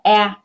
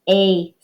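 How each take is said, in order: First: The vowel has its short, clipped sound. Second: The vowel sounds like its letter name. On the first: "My short A makes the A sound" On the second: "my long A makes the A sound"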